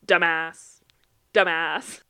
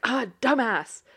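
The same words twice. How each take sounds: First: Loud, matter-of-fact repeat, evenly pitched; parroting child. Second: Raised, irritated imitation of a mom; mock exasperation. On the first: Retold or imitated. Nephew in the back seat copying grandma, loud parroting. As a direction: parrot it twice, louder, like a copying kid. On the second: Mom cursing a speeding driver, mildly exasperated. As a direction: toss it out at a bad driver.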